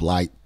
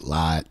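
First: Said in a general American accent. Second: Said in a West Virginia accent. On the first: "instead of light" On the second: "people will say light"

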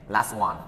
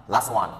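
The two takes are said the same way.

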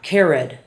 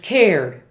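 First: The word is said as two syllables. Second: The word is said as one syllable. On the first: The speaker calls it wrong. "not cared" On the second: The speaker calls it right. "the past tense is cared"

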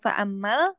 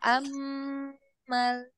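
First: The m sound is cut short without holding. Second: The m sound is held for several beats. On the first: The speaker calls it wrong. "jangan langsung fa'ammal" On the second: The speaker calls it right. "tapi fa'ammal"

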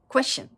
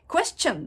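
First: The word ends with a reduced 'shun' sound. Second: The word ends with a katakana-style 'chon' sound. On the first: This is how native speakers say it. "シュになるんです。" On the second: It is understood but is not how native speakers say it. "question ってもう完全にカタカナですね。"

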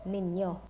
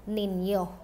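Both takes have the same delivery.

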